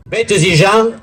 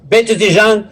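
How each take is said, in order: Both takes have the same delivery.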